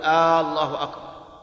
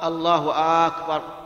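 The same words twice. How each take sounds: First: The opening vowel of Allah is drawn out. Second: The opening vowel of akbar is drawn out. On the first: "ولا يجوز أن يمد الهمزة فيقول" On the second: "ولا أن يمد الهمزة همزة أكبر فيقول"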